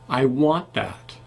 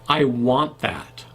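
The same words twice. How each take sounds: No difference in how they are said.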